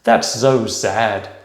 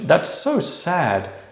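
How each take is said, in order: First: The s sounds are voiced and buzzed. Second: The s sounds are voiceless and hissed. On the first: The speaker calls it wrong. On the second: The speaker calls it right.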